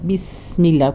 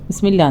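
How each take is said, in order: First: The s sound is held long. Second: The s sound is cut short. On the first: The speaker calls it right. "ഓരോ സുക്കൂന് ടൈം അധികം കൊടുക്കണം" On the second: The speaker calls it wrong. "ബിസ്മില്ല ബിസ്മില്ല എന്നില്ല"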